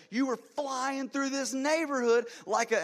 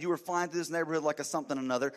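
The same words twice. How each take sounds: First: High, loud, slow furious accusation; yelling. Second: Said in the usual way. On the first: Retold or imitated. Pastor yelling at the driver for speeding, high slow furious yell. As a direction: drag it out, seething at the reckless driver. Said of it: "as I yelled that". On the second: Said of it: "So needless to say".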